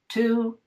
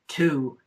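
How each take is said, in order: First: The pitch stays level on the word. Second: The pitch falls on the word.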